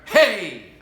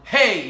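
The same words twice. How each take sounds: First: The yell comes from the diaphragm. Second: The yell comes from the throat.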